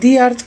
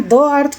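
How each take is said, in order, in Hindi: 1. 'The' को लंबे 'ee' स्वर के साथ बोला जाता है। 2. 'The' को छोटे 'uh' स्वर के साथ बोला जाता है। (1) "भावेल साउंड आसबा बोले कहार ... दी" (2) "द रो जे उच्चारणटा अछि प्रोनाउंसिएशनटा पहला अछि द"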